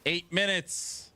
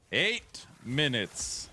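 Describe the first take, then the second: First: Said in the usual way. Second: Slow, stretched eight minutes; slow, emphatic eight minutes; drawn-out announcement. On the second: Real, not acted. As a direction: lean on eight, slowly.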